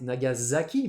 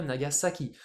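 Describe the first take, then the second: First: NAGASAKI with S as z; French Nagasaki. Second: NAGASAKI with s, not z; Japanese Nagasaki. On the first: Teacher showing the French reading, NAGASAKI with a z. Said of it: "Alors nous, A S A". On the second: Teacher warning students, NAGASAKI with an s. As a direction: keep the S in NAGASAKI unvoiced, na-ga-sa-ki. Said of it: "en japonais ça se prononce bien Nagasaki". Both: Shown as a demonstration.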